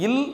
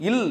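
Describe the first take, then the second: First: "இல்" with a light dental l; tongue tip light on the front palate for "இல்"; small l. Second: "இல்" with a pressed retroflex l; big l. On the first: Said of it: "சின்ன இல்ல உச்சரிச்சு". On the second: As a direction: press the tongue further back for "இல்". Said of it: "பெரிய இல்ல உச்சரிச்சு". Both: Shown as a demonstration.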